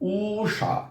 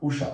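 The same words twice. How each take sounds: First: The first vowel is drawn out long. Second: The first vowel is kept short. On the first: The speaker calls it wrong. "আমরা যদি দীর্ঘ উচ্চারণটা করতাম তাহলে আমাদের করতে হতো উষা" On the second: The speaker calls it right. "ছোট করে দীর্ঘ উকে দীর্ঘ করে টানি না, ছোট্ট করে টানি"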